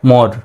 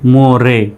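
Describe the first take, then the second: First: The word ends on the r sound. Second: The word ends with an extra vowel sound. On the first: The speaker calls it right. "সঠিক উচ্চারণটা হলো মোর" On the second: The speaker calls it wrong. "মোরে কিন্তু নয়"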